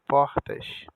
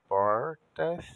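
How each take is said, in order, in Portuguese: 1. O R não está enrolado e o S chia. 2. O R está enrolado e o S sibila. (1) "o carioca não enrolou a língua no R e falou o S como X" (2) "o paulista falou diferente ao enrolar a língua no R"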